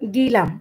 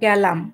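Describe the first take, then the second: First: The first vowel is a high 'i' sound. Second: The first vowel is a mid 'e' sound. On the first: This is the regional dialect form. The speaker calls it wrong. "ছেলেদেরকে তোমরা কি বলো?" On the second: This is the standard form. The speaker calls it right. "গিলামে কি হবে? গেলাম"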